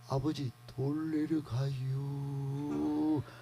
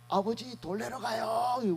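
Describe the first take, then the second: First: It is spoken in an old Chungcheong dialect accent. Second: It is spoken in a Gyeongsang dialect accent. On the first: "충청도 사람은 옛날에 그랬다는 거예요" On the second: "우리 경상도는 그렇게 가잖아요"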